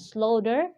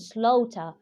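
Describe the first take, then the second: First: The final r sound is pronounced, American style. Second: The final r sound is dropped, British style. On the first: "if you pronounce the sound of letter er, it will be an American pronunciation" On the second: "If you don't pronounce the letter er, this is a British pronunciation"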